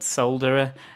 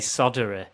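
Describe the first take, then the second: First: It is said with a British pronunciation. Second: It is said with an American pronunciation.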